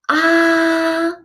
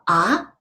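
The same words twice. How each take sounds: First: The pitch stays high and level throughout. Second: The pitch rises from middle to high. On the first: "It's a high flat tone" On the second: "The second tone is going up"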